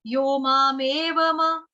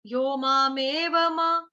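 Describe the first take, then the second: No difference in how they are said.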